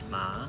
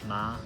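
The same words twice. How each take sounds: First: The pitch rises like a question. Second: The pitch stays high and level throughout. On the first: "second tone ma, almost like you're asking a question" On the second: "for the first tone we have ma"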